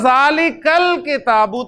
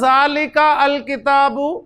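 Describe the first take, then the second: First: The article's vowel drops and links to the word before. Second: The article is sounded separately with its own vowel. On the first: The speaker calls it right. "मैं पढ़ूंगा" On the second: The speaker calls it wrong. "मैं क्या ऐसे पढ़ूंगा"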